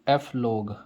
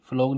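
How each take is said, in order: First: The word is split into "ef" and "log". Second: The word is said as one syllable, "flog". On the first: "हम इसको पढ़ेंगे एफ लोग" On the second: "फ्लोग नहीं पढ़ूंगा मैं"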